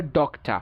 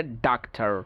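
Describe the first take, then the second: First: British ডক্টর as DOK-tuh; rounded O in ডক্টর, silent R; British pronunciation. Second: American ডাক্তার as DAHK-ter; American pronunciation. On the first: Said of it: "ব্রিটিশরা বলে". (ডক্টর-এ অ, British উচ্চারণ) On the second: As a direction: open AH in ডাক্তার, R sounded. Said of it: "আমেরিকানরা বলে". (ডাক্তার-এ আ, American উচ্চারণ) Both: Shown as a demonstration.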